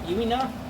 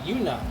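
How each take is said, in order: First: An 'ee' sound is heard before the final syllable. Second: No 'ee' sound is heard before the final syllable.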